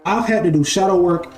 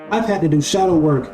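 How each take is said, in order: Both takes have the same delivery.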